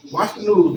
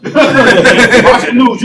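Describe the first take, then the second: First: Said in the usual way. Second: Louder, higher, slowly drawn out through laughter; laughing repeat. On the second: Shown as a demonstration. Repeating it to a friend, laughing loudly. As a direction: stretch the words out while cracking up.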